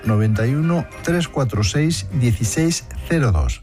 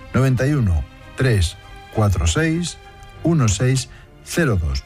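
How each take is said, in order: First: It is said at normal speed. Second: It is said more slowly.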